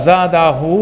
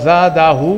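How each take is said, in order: Both takes have the same delivery.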